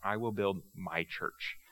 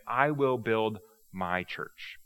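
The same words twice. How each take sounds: First: "I will build my church" repeated softer and slow. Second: "I will build my church" slow, each word weighed; emphatic slow. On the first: Jesus repeating his promise, softer and slow. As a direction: let "I will build my church" sink in quietly. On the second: Jesus declaring his church, slow and weighty. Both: Shown as a demonstration. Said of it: "the real emphasis is Jesus saying".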